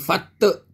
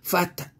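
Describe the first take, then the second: First: The final t is followed by a full vowel. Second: The final t has a slight, light bounce. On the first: The speaker calls it wrong. "Bukan fatta, tak ada" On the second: The speaker calls it right. "qalqalah sughra. Bunyi sikit lah"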